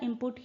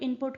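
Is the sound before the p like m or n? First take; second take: m; n. First: The first syllable ends in an m sound. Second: The first syllable ends in a clear n sound. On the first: "इनपुट ही निकलेगा आपके मुंह से" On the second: "rapidly अगर आप बोलेंगे तो इनपुट का"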